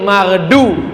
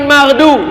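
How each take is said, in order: First: The d sound is heavy and emphatic. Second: The d sound is light and plain. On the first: The speaker calls it right. "pakai dhad" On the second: The speaker calls it wrong. "bukan maghdu"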